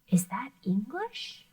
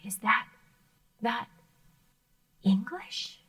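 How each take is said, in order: First: It is said smoothly without a break. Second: It is said with a stuttering repeat.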